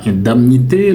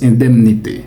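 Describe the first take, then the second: First: Indemnité said "in-dam-nité" with nasal "in" and "am"; wrong pronunciation. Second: Indemnité said "in-dem-nité" with "dem" like "dème"; correct pronunciation. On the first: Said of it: "On ne le prononce pas". (indemnité prononcé à tort « in-dam-nité ») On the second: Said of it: "le mot se prononce". (indemnité bien prononcé « in-dème-nité ») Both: Shown as a demonstration.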